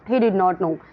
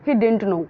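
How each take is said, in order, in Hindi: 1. 'did not' दो पूरे शब्दों की तरह बोला जाता है। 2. 'did not' को एक छोटे शब्द में सिकोड़कर बोला जाता है।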